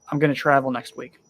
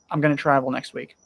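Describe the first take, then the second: First: The two words merge into one short word. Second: The two words merge into one short word.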